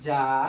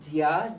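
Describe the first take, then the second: First: It is said as one merged syllable, ja. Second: It is said as two syllables, ji-ya. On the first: The speaker calls it right. "এটার প্রনাউন্সিয়েশন হবে যা" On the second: The speaker calls it wrong. "এটার প্রনাউন্সিয়েশন ছন্দ অনুসারে হওয়ার কথা"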